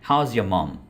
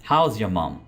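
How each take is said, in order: Both takes have the same delivery.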